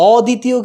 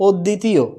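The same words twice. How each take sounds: First: অদ্বিতীয় higher, with a long o and single d; wrong pronunciation. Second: অদ্বিতীয় as "od-ditiyo", doubled d; correct pronunciation. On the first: Teacher showing what it is not, single-d mispronunciation. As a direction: say অদ্বিতীয় as "o-ditiyo", raised pitch. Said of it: "অদ্বিতীয় কিন্তু হচ্ছে না". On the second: Teacher correcting the mistake, doubled-d demo. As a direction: stop on the d in অদ্বিতীয়, then release. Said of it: "উচ্চারণটা হয়েছে কি". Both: Shown as a demonstration.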